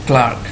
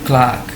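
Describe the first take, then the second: The two takes are said the same way.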